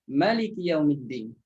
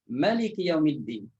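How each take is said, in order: The two takes are said the same way.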